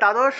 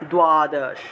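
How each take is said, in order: First: The first consonant has no w-like glide. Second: A w-like glide follows the first consonant. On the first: This is the everyday Bengali pronunciation. "বাংলায় বললে" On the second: This is the Sanskrit pronunciation. "সংস্কৃত উচ্চারণ হবে"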